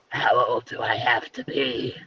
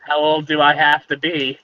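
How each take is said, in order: First: It is said in a character voice. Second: It is said in a normal voice.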